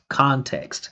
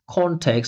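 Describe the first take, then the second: First: The first vowel is big and open. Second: The first vowel is smaller and more closed. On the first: "Mine's way more open and big" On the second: "He's saying context context"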